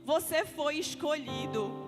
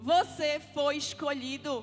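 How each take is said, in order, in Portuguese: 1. É dita com suavidade, sem força. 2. É dita com firmeza, com força de comando. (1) "não diz assim não" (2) "diz com autoridade"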